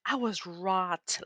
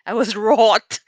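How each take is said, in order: First: Said in the usual way. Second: Loud, laughing through wroth. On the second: Shown as a demonstration. Telling viewers how angry she was, laughing loud. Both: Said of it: "about a woman wrath?".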